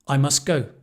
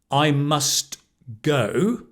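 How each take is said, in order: First: The T sound in 'must' is dropped. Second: The T sound in 'must' is pronounced. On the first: "The T goes"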